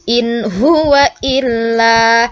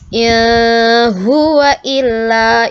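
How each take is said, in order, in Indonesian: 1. Bunyi n dibaca jelas. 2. Bunyi n tidak dibaca jelas. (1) "hukum bacaan izhar itu harus dibaca jelas" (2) "itu kurang kurang tepat"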